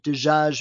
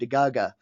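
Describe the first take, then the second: First: It is said in Standard Arabic. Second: It is said in the Omani way.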